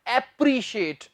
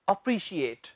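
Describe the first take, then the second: First: The first vowel sounds like 'eh'. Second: The first vowel sounds like 'uh'. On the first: The speaker calls it wrong. "इससे ये नहीं कहना एप्रिशिएट" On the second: The speaker calls it right. "इसका जो सही उच्चारण है वो है अप्रिशिएट"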